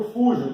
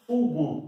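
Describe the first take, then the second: First: Soft j as in French "je" in "fujo"; soft J sound. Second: Hard g as in "go" in "fugo". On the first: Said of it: "Aqui eu não consigo usar o J". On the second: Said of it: "porque senão fugo". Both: Shown as a demonstration.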